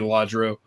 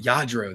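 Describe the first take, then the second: First: The name starts with an L sound. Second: The name starts with a Y sound. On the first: "I'm just gonna say Ladro" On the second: "it's pronounced Yadro"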